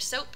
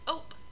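First: The word begins with its first consonant. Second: The word's first consonant is left out. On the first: The speaker calls it right. "instead of" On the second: The speaker calls it wrong. "Initial consonant deletion"

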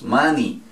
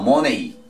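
First: The final vowel sounds like 'ee'. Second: The final vowel sounds like 'ay'. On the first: The speaker calls it right. "Es money" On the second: The speaker calls it wrong. "No money"

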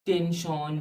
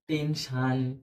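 First: The ending is said like 'shon'. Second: The ending is said like 'shan'. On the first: "আসলে শন নয়" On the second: "আবার যারা বলেন টেনশান"

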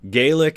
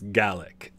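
First: The word is pronounced the Irish way. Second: The word is pronounced the Scottish way. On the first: This is the name used for the language in Ireland. "Gaelic is in Ireland" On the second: This is the name used for the language in Scotland. "In Scotland, it's Gaelic"

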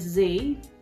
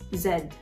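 First: The letter is said as zee. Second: The letter is said as zed. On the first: "in American English, as we pronounce it" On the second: "Here, Z is not Z, it's pronounced Z. Z-E-D"

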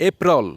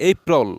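Both takes have the same delivery.

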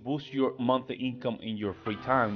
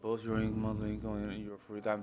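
First: The phrase is spoken clearly and expressively. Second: The phrase is spoken in an unclear mumble. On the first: The speaker calls it right. "Instead of saying" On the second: The speaker calls it wrong. "they start mumbling around... they tend to do something like this... Do not do that"

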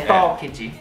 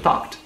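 First: The -ed ending is stressed as a separate syllable. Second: The -ed ending is a soft, merged final sound. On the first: The speaker calls it wrong. "Fala bem, enfatiza o ed" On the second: The speaker calls it right. "Você não precisa enfatizar ali o ed, só de uma forma bem mais sutil"

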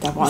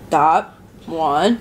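First: The phrase is said quickly and smoothly. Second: The phrase is said slowly and awkwardly. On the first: The speaker calls it right. "Say it faster. Just be like" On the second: The speaker calls it wrong. "do not like"

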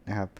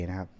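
The two takes are said the same way.

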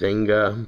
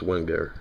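First: The name is said with a German pronunciation. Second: The name is said with a New York pronunciation. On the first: The speaker calls it right. "they pronounce it Wenger" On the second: The speaker calls it wrong. "my New York accent kind of takes over. It's Wenger"

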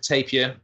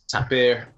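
First: The word is said with an English pronunciation. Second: The word is said with a Spanish pronunciation. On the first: "I pronounce it tapir" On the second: "in Spanish it's tapir"

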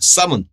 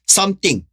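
First: The word is reduced to sound like someone. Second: The word is said fully and strongly. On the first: "심지어 더 약하면 someone까지 가 돼요" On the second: "강하게 발음할 때는"

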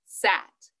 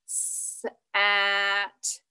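First: The 's' sound is short and blends straight into 'at'. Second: The 's' sound is stretched out long before 'at'. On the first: The sounds are put back together into the word. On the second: The word is broken into its sounds.

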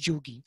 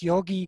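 First: It begins with a j sound and u. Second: It begins with a y sound and o. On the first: This is the local Bengali form. "but in Bengal, in Eastern India, it's Jugi" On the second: This is the Sanskrit form. "So the Sanskrit yogi"

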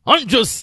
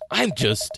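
First: It is said in a put-on Chelmy voice. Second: It is said in the speaker's normal voice.

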